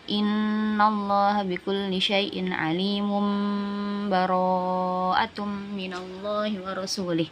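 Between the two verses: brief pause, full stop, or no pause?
no pause. The verses run together with no break. "Terus kalau wasol"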